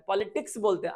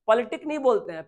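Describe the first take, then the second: First: पॉलिटिक्स with the final ks; right form politics. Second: पॉलिटिक ending on k, no s; wrong form politic. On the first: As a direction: give पॉलिटिक्स as the correct form. (पॉलिटिक्स, 'क्स' के साथ) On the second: (पॉलिटिक, बिना 'स' के) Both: Shown as a demonstration.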